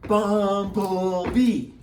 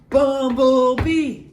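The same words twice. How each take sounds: First: The word is said slowly. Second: The word is said fast.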